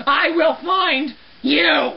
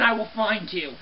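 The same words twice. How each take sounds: First: "I will find you" drawn out slowly, word by word; slow emphatic threat. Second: Said in the usual way. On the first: Acted. Cleaner threatening the phantom, "I will find you" as a slow emphatic threat. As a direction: stretch "find" and land hard on a separate "you".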